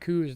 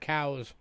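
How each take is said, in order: First: The vowel sounds like in 'goose'. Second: The vowel sounds like in 'cow'. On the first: The speaker calls it wrong. "They kept calling them coos" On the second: The speaker calls it right. "that's actually pronounced cows. Like a cow"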